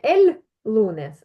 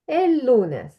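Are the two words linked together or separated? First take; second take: separated; linked. First: The two words are said separately. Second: The two words are run together as one. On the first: The speaker calls it wrong. "воно звучить не el lunes" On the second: The speaker calls it right. "а el lunes"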